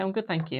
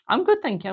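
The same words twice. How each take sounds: First: Said in the usual way. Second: Much higher, louder cheerful answer; bright high reply. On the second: Real, not acted. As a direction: chirp it back high and loud. Reads viewer reply aloud.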